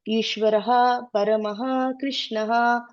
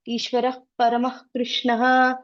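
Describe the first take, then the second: First: Each word ends with a clearly heard breathy h. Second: Said fast, the final breathy h is not heard. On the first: The words are said separately, not in the verse meter. "if you split it, you'll tell" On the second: The words are recited within the verse meter. "You tell fast ... So you don't hear the Visarga"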